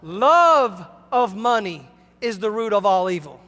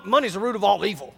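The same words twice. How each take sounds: First: Deliberate correction, "Love" punched and held; stress on "Love". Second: Quick, low throwaway misquote with no weight on "money's"; imitating people quoting it wrong; misquoting the Bible. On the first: Shown as a demonstration. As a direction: hit "Love" hard as the corrected word. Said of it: "For the what?". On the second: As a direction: toss it off like a careless quoter. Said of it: "they quote the Bible wrong".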